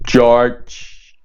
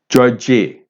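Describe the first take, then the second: First: The word ends cleanly on the final consonant. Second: An extra vowel sound follows the final consonant. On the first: The speaker calls it right. "It's George" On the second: The speaker calls it wrong. "if it's not correctly pronounced, it'll come out ... as Georgie"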